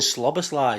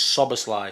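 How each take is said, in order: First: The name begins with an 'sl' sound. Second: The name begins with a plain 's' sound. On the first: The speaker calls it wrong. "I was saying Sloboslai" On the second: The speaker calls it right. "so it's Soboslai"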